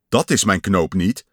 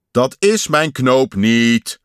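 First: Said in the usual way. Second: Loud, drawn-out yell of protest. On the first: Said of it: "zei Pat". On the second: A narrator's reading. Pat rejects yet another button, yelling in frustration. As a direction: yell it slowly, stretching the words. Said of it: "gilde Pat".

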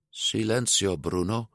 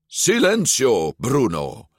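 First: Small, half-hearted command; weakly. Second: Higher, firm, drawn-out command; more confident. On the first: Luca first trying to silence his inner voice, weakly. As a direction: say it timidly, fading away. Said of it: "zei Luca zwakjes". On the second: Luca silencing his inner voice, confidently. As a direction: say it with conviction. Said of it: "met meer zelfvertrouwen". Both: A narrator's reading.

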